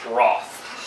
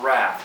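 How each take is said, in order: First: It is said with a British accent. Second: It is said with an American accent.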